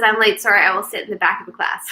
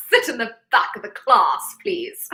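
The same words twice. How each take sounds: First: Said in the usual way. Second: Hammed-up, badly done British accent; a mock-posh British teacher ordering him to the back. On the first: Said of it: "He says". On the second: Repeating a viewer's late message in a jokey bad British accent. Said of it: "that was a horrible British accent".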